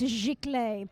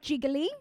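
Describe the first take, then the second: First: The word is said with a French accent. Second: The word is said the English way, like jiggly. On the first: The speaker calls it right. "I should say it with my French accent" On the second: The speaker calls it wrong. "It's not jiggly"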